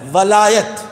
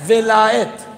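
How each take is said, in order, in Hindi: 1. पहले अक्षर में 'a' स्वर है। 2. पहले अक्षर में 'i' स्वर है। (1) "वाव के ऊपर जेर नहीं, जबर है" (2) "वाव के नीचे जेर है"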